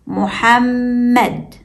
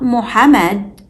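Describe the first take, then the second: First: Muhammad slowly, with the middle m held long; slow Muhammad with a hummed double m. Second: Muhammad with a short, undoubled middle m; Muhammad as mu-ha-med, no held m; single m. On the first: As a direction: linger on the mm of Muhammad: mu-hamm-med. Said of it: "it's Muhammad". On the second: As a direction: say Muhammad quickly through the m, as mu-ha-med. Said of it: "Not Muhammad". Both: Shown as a demonstration.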